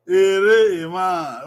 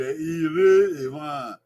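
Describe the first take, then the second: First: Slowly spelled out, syllable by syllable, "Ere Ewan"; slow model phrase. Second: "Ere Ewan" again, drawn out slowly, confirming; slow "Ere Ewan", as if checking the class; slow repeat. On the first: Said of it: "Okay, Ere Ewan". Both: Shown as a demonstration.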